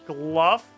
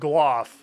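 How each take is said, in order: First: The vowel sounds like the one in 'rough'. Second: The vowel sounds like the one in 'cough'. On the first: The speaker calls it wrong. "Gluff is the Jmod pronunciation" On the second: The speaker calls it right. "Surely it'd be like gloff. Like cough, right?"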